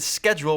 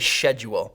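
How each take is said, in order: First: The word begins with an 'sk' sound. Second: The word begins with an 'sh' sound. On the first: The speaker calls it right. "You say I'm going to school and I'll check the schedule" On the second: The speaker calls it wrong. "I hate when people say schedule"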